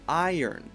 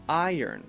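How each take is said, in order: First: The first vowel sounds like 'eye', gliding. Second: The first vowel sounds like 'eye', gliding.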